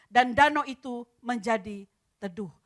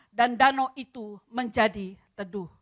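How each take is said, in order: No difference in how they are said.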